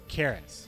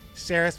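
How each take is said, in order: First: The name begins with a hard K sound. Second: The name begins with a soft S sound.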